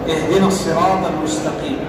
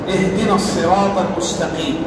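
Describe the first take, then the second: No difference in how they are said.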